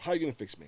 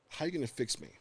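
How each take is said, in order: First: Retold blurt, a little higher; sudden challenge, mildly voiced. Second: Said in the usual way. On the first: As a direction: blurt the question out, lightly re-enacted. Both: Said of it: "blurted out".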